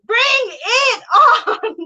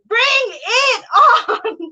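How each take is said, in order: First: It is said with a giggle in the voice. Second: It is said with a giggle in the voice.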